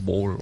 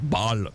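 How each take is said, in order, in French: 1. Le mot n'est pas prononcé à l'allemande. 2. Le mot est prononcé à l'allemande. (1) "et pas ball" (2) "on le prononce à l'allemande, et donc, donc on dit ball"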